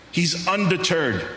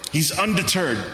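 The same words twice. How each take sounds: The two takes are said the same way.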